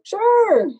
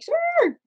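First: Eager yes. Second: Sharply higher, bright squeaky yes; eager yes. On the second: Agreeing to do a friend's makeup, an eager high sure. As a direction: jump at the offer with a high squeal. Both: Retold or imitated. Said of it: "And I was like".

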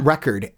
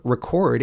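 First: Record stressed on the first syllable, REH-cord; record as a noun, with the first syllable stressed and the second reduced. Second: Record stressed on the second syllable, rih-CORD; record as a verb, with the first syllable reduced and the second stressed. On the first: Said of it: "You take a word like R E C O R D as a noun". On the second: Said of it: "but as a verb". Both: Shown as a demonstration.

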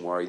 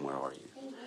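First: Said in the usual way. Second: "Where are you?" dropped much softer and lower; soft spiritual question. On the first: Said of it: "this is not a physical question". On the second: Shown as a demonstration. Pastor voicing God's searching question, hushed. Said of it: "This is a spiritual question".

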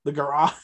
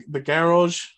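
First: Garage with dropped r, Boston accent. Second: Garage in a half-tried Boston accent. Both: Shown as a demonstration. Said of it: "I'm trying to find a way to say it in a Boston accent".

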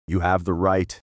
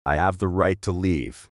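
First: You HAVE the right, leaning on "have"; a calm lean on "have" before the but; stress on HAVE. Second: I have THE right, leaning on "the"; insisting, a light lean on "the"; stress on THE. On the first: Echo conceding the right. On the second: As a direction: lean on "the" as if claiming it. Echoed claim of rights. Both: Acted.

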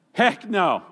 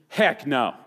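First: "Heck no" said higher and louder, punched hard on "Heck"; second "Heck no" pushed up with force, stress on "Heck"; emphatic Texan "heck no". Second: Texan "heck no". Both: Pretend. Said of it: "We would translate it in Texan".

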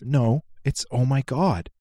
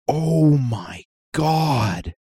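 First: Put-on slow, drawn-out little kid insisting on "oh my God"; stubborn toddler, stretched slow. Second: Put-on slow, drawn-out little kid voice; toddler imitation. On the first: Dad imitating his son insisting on the word God. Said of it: "He goes". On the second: Dad imitating his son reacting to the TV, slow toddler voice. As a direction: stretch it like a two-year-old. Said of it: "Sully goes".

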